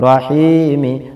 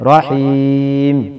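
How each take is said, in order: First: The word ends with a final vowel. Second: The word ends on a consonant. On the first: The reading continues on. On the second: The reader stops here.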